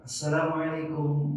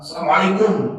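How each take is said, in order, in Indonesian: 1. Salamnya diucapkan dengan lembut dan mesra. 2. Salamnya diucapkan dengan keras dan ketus. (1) "mesra Pak" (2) "enggak begitu"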